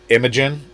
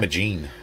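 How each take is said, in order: First: The name ends with a short 'jen' sound. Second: The name ends with a long 'jeen' sound. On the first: The speaker calls it right. "That's how you actually pronounce it" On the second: The speaker calls it wrong. "I was saying"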